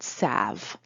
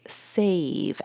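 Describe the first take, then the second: First: The vowel is a short A sound. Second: The vowel is a long A sound. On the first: The speaker calls it wrong. "not a short A" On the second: The speaker calls it right. "know that it takes a long vowel"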